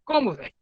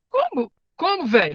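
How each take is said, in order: First: Said in the usual way. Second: Sudden high disbelieving "Como? Como, velho?" with "Como" jumping way up; imitating the boy. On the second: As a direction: mimic a stunned kid's slangy reply, pitch leaping on "Como". (imitando o menino, "Como?" bem agudo e incrédulo) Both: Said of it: "é mais ou menos que isso fala, a linguagem dele".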